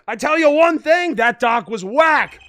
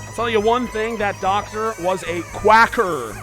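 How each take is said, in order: First: The words are run together and unclear. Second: Each word is pronounced slowly and distinctly.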